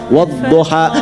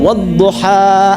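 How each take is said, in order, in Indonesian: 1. Vokal panjangnya condong ke bunyi 'e'. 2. Vokal panjangnya berbunyi 'a' terbuka.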